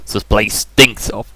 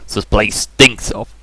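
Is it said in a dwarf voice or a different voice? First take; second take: dwarf voice; dwarf voice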